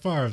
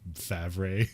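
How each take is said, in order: First: The R sound comes before the V sound. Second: The R sound comes after the V sound. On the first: This is how everyone says the name. "everyone calls him Brett Favre" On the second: This follows the spelling of the name. "the R comes after the V. It'd be Favre"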